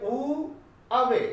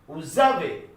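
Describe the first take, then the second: First: The words are said separately without a z sound. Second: The words are joined with a linking z sound. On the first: The speaker calls it wrong. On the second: The speaker calls it right.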